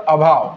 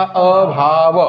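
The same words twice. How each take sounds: First: Said in the usual way. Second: अभाव stretched very slowly, sound by sound; drawn-out syllables. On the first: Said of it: "अ चा अर्थ काय होतो". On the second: Shown as a demonstration. Teacher spelling out the meaning of अ to the class, drawn-out अभाव. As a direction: draw out अभाव, holding the opening अ apart from भाव. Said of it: "अ चा अर्थ काय होतो सांगा".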